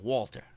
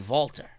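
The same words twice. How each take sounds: First: The name is said the plain English way. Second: The name is said the Austrian way. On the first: It sounds too plebeian. The speaker calls it wrong. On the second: It sounds intelligent and better. The speaker calls it right.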